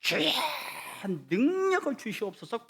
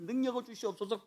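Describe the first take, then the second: First: Mimicking a student crying out in prayer; high pleading prayer call; mock fervent prayer cry. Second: \"능력을 주시옵소서\" said much softer, a pulled-back murmur; quiet mock prayer; softer prayer repeat. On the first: Student's loud prayer imitated. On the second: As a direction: drop the prayer to a soft mutter. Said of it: "땡기면서".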